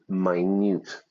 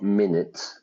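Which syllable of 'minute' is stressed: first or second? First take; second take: second; first. First: The stress is on the second syllable. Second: The stress is on the first syllable. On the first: The speaker calls it right. "very, very, very, very small" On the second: The speaker calls it wrong. "not minute"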